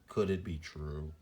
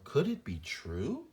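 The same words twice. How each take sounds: First: The voice stays level or falls at the end. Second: The voice rises a little at the end. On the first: The speaker calls it wrong. "instead of" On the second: The speaker calls it right. "It almost rises at the end a little bit"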